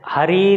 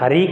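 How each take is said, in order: First: It is called out loudly with a long final vowel. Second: It is said plainly with a short final vowel. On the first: The speaker is calling someone far away. "बहुत तेज आवाज़ लगाने के लिए इस प्लुप्त स्वर का ही हम प्रयोग करते हैं" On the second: The name is simply being said. "केवल हरी कहते तो ज़्यादा दूर तक आवाज़ नहीं जाती"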